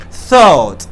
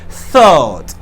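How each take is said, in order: First: The first sound is a clear th. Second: The first sound is a clear th.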